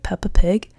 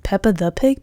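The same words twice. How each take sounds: First: Unsure whisper, half to herself. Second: Said in the usual way. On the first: Shown as a demonstration. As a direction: breathe it out as a doubtful aside. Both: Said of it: "I don't know which one it is".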